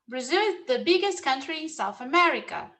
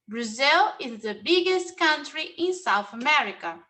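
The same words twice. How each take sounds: First: It is said at a faster pace. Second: It is said at a slower pace.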